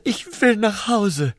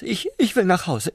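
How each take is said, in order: First: Higher and slow, whining plea; drawn-out whine. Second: High, hurried and stammering; urgent stammer. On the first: Prawn begging to go home, slow high whine. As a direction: stretch it into a homesick whine. Repeated slower whining take. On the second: Prawn begging the slug for help, hurried high plea. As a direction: blurt it out in a rush. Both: Acted.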